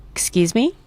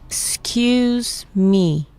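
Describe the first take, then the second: First: Said in the usual way. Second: Very slow, drawn-out "Excuse me"; syllable by syllable. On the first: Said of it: "say it like you mean it". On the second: Shown as a demonstration. Teacher modelling "Excuse me" for learners, syllable by syllable. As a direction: stretch "Excuse" and "me" apart. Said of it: "Let's break it down by syllable".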